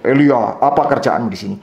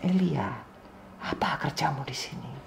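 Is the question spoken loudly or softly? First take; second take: loudly; softly. First: The question is spoken in a loud, big voice. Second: The question is spoken in a soft, gentle voice. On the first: The speaker calls it wrong. "bukan pertanyaan suaranya gede" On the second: The speaker calls it right. "Ini pertanyaan yang suaranya lembut"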